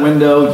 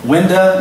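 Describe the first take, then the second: First: It is said with the standard pronunciation. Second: It is said with the regional dialect pronunciation. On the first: "instead of window" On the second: "Window instead of window"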